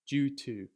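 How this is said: British accent, the d sounds like a j. "This is how I would pronounce it in my British English accent"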